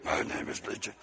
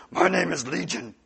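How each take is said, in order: First: Hushed, sinister stage whisper; voiceless, very soft demon introduction. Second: Put-on demon voice, voiced; voiced, theatrical demon introduction; demon naming itself. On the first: Acted. Demon's name repeated in whisper. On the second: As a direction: announce it as the demon, at normal volume. Demon's name, first full take.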